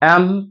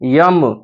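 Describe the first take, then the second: First: The letter name starts with a plain vowel sound. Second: The letter name starts with a 'y' sound. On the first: The speaker calls it right. "इसको एल, एम, एन, एस, एच ऐसे बोला जाता है" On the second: The speaker calls it wrong. "कुछ लोग इस इन letters को जो है ऐसे बोलते हैं ... या से स्टार्ट कर देते हैं, बट ये बिल्कुल गलत तरीका है"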